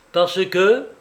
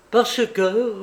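First: Louder, higher, pressing question; curt challenge, rising at the end; almost harsh. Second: Higher, suddenly energetic retort; abruptly energized, raised voice; sudden energy. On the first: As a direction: throw it back almost harshly. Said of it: "répondit presque durement Litvinov". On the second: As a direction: seize the words with sudden force. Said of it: "avec une subite énergie". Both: A narrator's reading.

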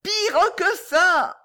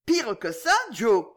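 First: High, slow, stretched-out yell; shouting. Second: Higher, quicker aghast echo; exclaiming. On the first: Boy answering the deaf old lady, shouting. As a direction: cry it out, dragging every word. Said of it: "cria le jeune homme dans l'oreille". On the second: Old lady repeating the dreadful news, exclaiming. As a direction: echo it back as an incredulous question. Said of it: "s'écria la vieille dame". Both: A narrator's reading.

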